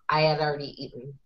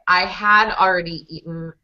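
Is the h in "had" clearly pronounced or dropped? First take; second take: dropped; pronounced. First: The h is dropped and "had" links to "I". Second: The h of "had" is clearly pronounced. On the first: "becomes I'd kind of like" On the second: "The sentence"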